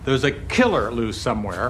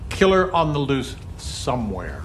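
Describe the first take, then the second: First: The word killer is hit hard, almost shouted. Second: The word somewhere is punched hardest.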